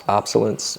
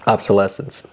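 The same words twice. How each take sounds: First: Obsolescence squeezed short as "OP-suh-lunce"; hesitant mispronunciation. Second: Obsolescence in full, "ob-suh-LESS-ence"; corrected pronunciation. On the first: Podcast host unsure of a word, mispronouncing obsolescence as OP-suh-lunce. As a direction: say obsolescence with its stressed "less" syllable swallowed. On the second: Host repeating co-host's correction, carefully saying ob-suh-LESS-ence for obsolescence. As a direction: give obsolescence every syllable, stressing LESS. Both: Real, not acted. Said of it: "Is that the right?".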